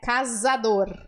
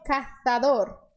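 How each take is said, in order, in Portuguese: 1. A consoante do meio é um Z de zumbido. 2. A consoante do meio é um TH. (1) "Aqui nós diríamos casador" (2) "com a língua entre os dentes"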